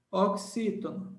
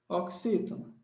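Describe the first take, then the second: No difference in how they are said.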